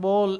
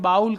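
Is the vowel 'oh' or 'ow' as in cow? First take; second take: oh; ow. First: The vowel sounds like 'oh' in go. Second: The vowel sounds like 'ow' in cow. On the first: This is the original pronunciation of the word. "એમ મૂળ ઉચ્ચાર એ છે" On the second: This is how the borrowed word is usually said locally. "બાઉલ કહીએ"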